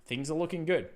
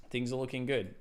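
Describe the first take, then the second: First: Upbeat sing-song. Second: Said in the usual way. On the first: Acted. Streamer cheering the chart to viewers, upbeat sing-song. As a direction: sell it like good news.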